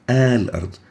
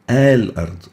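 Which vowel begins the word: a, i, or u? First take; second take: a; a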